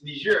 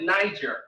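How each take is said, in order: First: The name is said in a French way. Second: The name is said in a non-French way. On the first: The speaker calls it right. "it's French pronunciation" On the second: The speaker calls it wrong. "Most people call it Niger"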